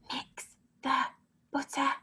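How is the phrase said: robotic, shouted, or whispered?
whispered. It is said softly, in a whisper. "Whisper it"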